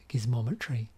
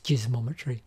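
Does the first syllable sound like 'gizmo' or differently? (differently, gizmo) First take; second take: gizmo; differently. First: The first syllable sounds like the start of gizmo. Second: The first syllable does not sound like gizmo. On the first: The speaker calls it right. "it's actually Giz as in Gizmo" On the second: The speaker calls it wrong.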